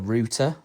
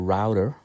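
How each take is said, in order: First: The word has a British pronunciation. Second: The word has an American pronunciation.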